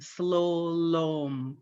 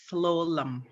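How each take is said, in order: First: Both vowels are pronounced as O. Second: The second vowel is a weak uh sound. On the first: This follows the written spelling. "The the U's are pronounced as O" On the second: This is how everyone actually says it. "But everybody pronounces it slowlum"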